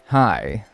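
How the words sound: The greeting sounds overbearing.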